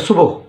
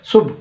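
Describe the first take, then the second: First: सुबह as two syllables su-bah; the common wrong सुबह, su-bo; wrong form. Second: सुबह as one clipped syllable subh; correct form. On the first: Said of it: "सुबह कोई लफ्ज़ नहीं". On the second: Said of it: "इसका exact pronunciation क्या है". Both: Shown as a demonstration.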